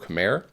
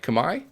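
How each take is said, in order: First: The name gets the common English-style pronunciation. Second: The name gets a pronunciation closer to native. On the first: This is how most players say it. "I know most players uh, refer to it as, say, Khmer" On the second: This is closer to how it is said in Cambodia. "the way it's uh, like natively pronounced is more like Kamai"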